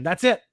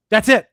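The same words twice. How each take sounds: First: Said in the usual way. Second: Louder emphatic repeat. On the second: Real, not acted. Insisting to chat, a louder emphatic that's it.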